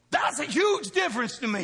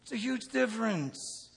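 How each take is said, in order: First: Louder emphatic. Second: Said in the usual way. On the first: Real, not acted. Repeated louder.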